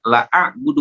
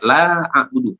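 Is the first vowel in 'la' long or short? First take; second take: short; long. First: The vowel after the l is short. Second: The vowel after the l is long. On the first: I surely worship what you worship. The speaker calls it wrong. "Arti dari lam dibaca pendek" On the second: I do not worship what you worship. The speaker calls it right. "lam kalau dibaca panjang artinya tidak"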